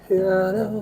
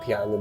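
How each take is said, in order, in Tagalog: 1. Malabo ang pagkasabi ng salita at mahirap intindihin. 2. Malinaw at buo ang pagkasabi ng salita. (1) "Pero piano" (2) "Piano dapat yun"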